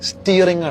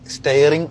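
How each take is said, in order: First: The first vowel sounds like in 'steer'. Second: The first vowel sounds like in 'stare'. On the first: It means controlling the vehicle. The speaker calls it right. "Actually pronounce ചെയ്യേണ്ടത് സ്റ്റിയറിംഗ് ആണ്" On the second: It means looking fixedly at something. The speaker calls it wrong. "ഒരുപാട് പേര് ഇതിനെ സ്റ്റെയറിംഗ് എന്ന് പറഞ്ഞിട്ടുണ്ട്"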